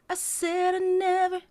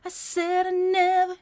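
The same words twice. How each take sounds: First: Sung evenly, no accent on "said"; sung, flat robotic delivery. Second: "said" bounced and accented, sung slowly. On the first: Coach singing the plain robotic way. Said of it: "that's very robotic". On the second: Coach demonstrating the bouncy voice effect. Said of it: "accent point on the said". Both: Shown as a demonstration.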